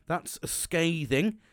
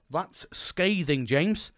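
First: Drawn out slowly, breaking into a laugh; a rereading of your own harsh email makes you laugh, said slowly; slower and laughing. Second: Slow, stunned. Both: Retold or imitated. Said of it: "I reread it and go".

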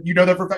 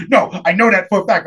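First: Said in the usual way. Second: Insistent "for a fact" with the R softened; imitated speech impediment. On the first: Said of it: "I was like". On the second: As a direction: mimic the kid insisting, "for" losing its R. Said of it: "he talked like this".

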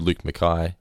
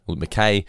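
First: Mackay rhyming with "sky"; alternative pronunciation. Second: Mackay rhyming with "day"; other pronunciation. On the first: Reading the leaderboard with one version, alternative pronunciation. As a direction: say Mackay as "muh-KIGH". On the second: Repeating the name the other way, other pronunciation. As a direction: say Mackay as "muh-KAY". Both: Shown as a demonstration. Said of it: "We have never really worked it out".

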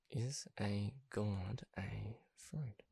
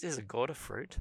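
First: Slow, very soft, word by word; drawn-out, quiet question to oneself; slow muttering to self. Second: Said in the usual way. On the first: Pretend. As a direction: mutter it slowly, as if looking it up. Slowly repeats it while looking up.

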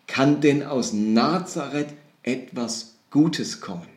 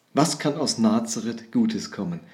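First: Slow, drawn-out doubtful question; sceptical question. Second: Said in the usual way. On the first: Retold or imitated. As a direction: weigh each word in doubt. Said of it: "eine skeptische Reaktion". (langsam und skeptisch gefragt) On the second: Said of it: "Das ist erstmal eine skeptische Reaktion".

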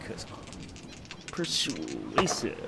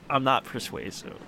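First: Low, slow, drawn-out "persuasive"; a joking low drawl on "persuasive"; mock persuasive. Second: Said in the usual way.

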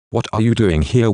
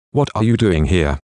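First: Mocking question. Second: Said in the usual way. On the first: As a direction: mimic a nosy, unwelcoming asker. Narrator mimics annoying askers.

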